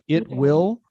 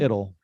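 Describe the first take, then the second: First: Both words are said fully and separately. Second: The two words are merged into one contraction. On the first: The speaker calls it wrong. "Instead of it will" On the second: The speaker calls it right. "it sounds more natural"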